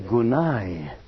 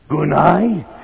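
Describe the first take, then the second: First: The word is said softly and gently. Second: The word is shouted loudly.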